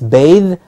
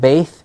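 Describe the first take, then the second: First: The final th sound is voiced. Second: The final th sound is voiceless. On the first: The speaker calls it right. "there it is a bit voiced" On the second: The speaker calls it wrong. "it's not bathe"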